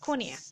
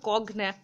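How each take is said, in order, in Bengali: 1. মাঝের অংশটি নরম 'ny' ধ্বনি, কোনো 'g' নেই। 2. মাঝের অংশটি শক্ত 'g', তারপরে 'n'। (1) "এই উচ্চারণটা হয় কনিয়াক" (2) "এই উচ্চারণটা কগন্যাক এইরকম উচ্চারণ হবে না কিন্তু"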